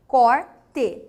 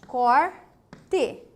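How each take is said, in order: First: Corte split as cor-te, louder; syllable split. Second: Said in the usual way. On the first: Shown as a demonstration. Teacher sounds out Corte in syllables. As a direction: break Corte cleanly between r and t. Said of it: "duas consoantes". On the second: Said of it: "Não é assim?".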